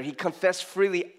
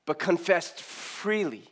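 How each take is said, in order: First: "He confessed freely" with the weight on "freely"; stress on freely. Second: Slow, weighted "but confessed freely"; emphasis on confessed freely. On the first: Preacher repeating the verse to underline "freely". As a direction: press the word "freely". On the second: Preacher slowly stressing the verse to the congregation. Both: Shown as a demonstration. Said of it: "There's an emphasis there".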